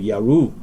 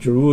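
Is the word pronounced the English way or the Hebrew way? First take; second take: Hebrew; English. First: The word is pronounced the Hebrew way. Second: The word is pronounced the English way. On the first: "Hebraic pronunciation will be more close to Yaru" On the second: "Jeru is a English pronunciation"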